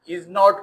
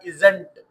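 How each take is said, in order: First: It is said as two full separate words. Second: It is said as one contracted word. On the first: "इज नॉट को" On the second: "गोरा pronounce करता है इजंट"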